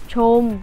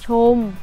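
The two takes are said the same way.

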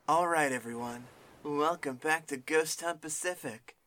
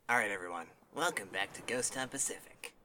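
First: It is said in a put-on preppy voice. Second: It is said in the speaker's normal voice.

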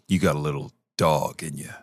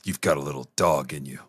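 First: It is said with emotion. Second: It is said in a neutral way.

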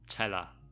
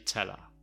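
First: The h sound in 'her' is dropped. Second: The h sound in 'her' is dropped.

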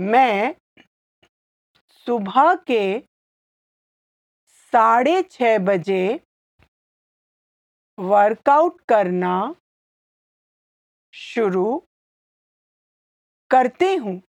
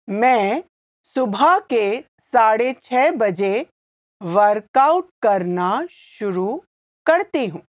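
First: It is said slowly. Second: It is said at normal speed.

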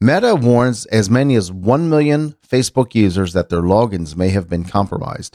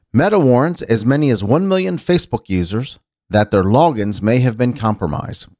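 The two takes are said the same way.

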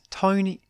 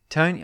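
First: It is said in a put-on woman's voice. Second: It is said in the reader's normal voice.

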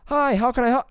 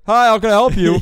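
First: It imitates a generic Siri-like woman's voice. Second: It imitates the voice of a guy.

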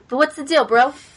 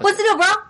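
First: The line is spoken at a normal pace. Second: The line is spoken very fast. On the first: The speaker calls it wrong. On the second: The speaker calls it right.

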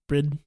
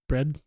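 First: The vowel is narrow, tight and further back. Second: The vowel is open and said plainly.

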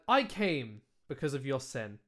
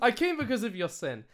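First: There is a pause after "I came." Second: It is said without a pause.

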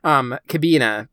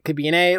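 First: The name is pronounced the German way. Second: The name is pronounced the Japanese way. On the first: "In German, it would be Kabina" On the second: "I think the Japanese, they'll pronounce it Kabine"

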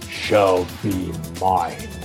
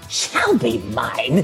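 First: It is said in a Dark Side voice. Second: It is said in a Joker voice.

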